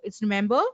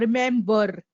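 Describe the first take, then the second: First: The final R is kept very minimal. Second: The final R is pronounced fully. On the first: The speaker calls it right. "Whenever there is an R at the last of any word, we have to minimize it" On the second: The speaker calls it wrong.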